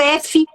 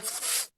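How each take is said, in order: First: The letter is said by its spoken name. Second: The letter is said as its bare sound. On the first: The speaker calls it wrong. "não é o F de folha" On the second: The speaker calls it right. "é o F de folha. É o som que você tem que trabalhar"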